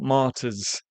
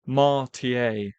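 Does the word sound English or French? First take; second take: English; French. First: The word is said with a plain English sound. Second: The word is said with a French-sounding ending. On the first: The speaker calls it right. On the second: The speaker calls it wrong.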